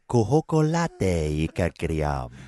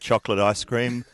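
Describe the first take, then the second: First: It is said with odd, invented vowels and sounds. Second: It is said with its normal pronunciation.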